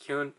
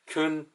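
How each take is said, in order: First: A 'y' glide comes before the vowel. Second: No 'y' glide comes before the vowel. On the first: The speaker calls it wrong. "I'm really trying not to say Kyun, because there's no Y" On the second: The speaker calls it right. "That's why I'm just trying to say like Kun"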